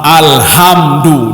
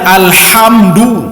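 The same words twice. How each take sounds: First: The h is a plain, light breathy sound. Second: The h is a harsh sound from the throat. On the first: It calls down a curse instead of giving praise. The speaker calls it wrong. "Yang salahnya begini" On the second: It gives praise. The speaker calls it right. "Sebenarnya alhamdu dengan ha"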